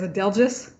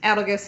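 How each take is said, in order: First: The last syllable sounds like 'gis'. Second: The last syllable sounds like 'gus'. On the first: This is the official narrator's way. "He says it as" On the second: This is the author's own way. "So I say it as um"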